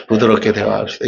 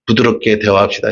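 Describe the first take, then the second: First: Softer, gentle repeat. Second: Soft and gentle. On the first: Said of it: "이제부터 부드럽게 대화하세요". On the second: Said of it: "옆 사람과 한번 얘기해 주세요". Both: Shown as a demonstration.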